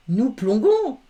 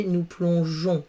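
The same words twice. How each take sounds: First: "plongons" said with a hard g, higher. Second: "plongeons" said with a soft zh sound. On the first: Teacher shows pupils the spelling without E, hard g in "plongons". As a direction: say "plongons" as plon-gon, with g as in go. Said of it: "ça fait G comme son". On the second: Teacher shows pupils what the added E gives, soft g in "plongeons". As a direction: say "plongeons" as plon-zhon. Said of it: "avec le E". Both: Shown as a demonstration.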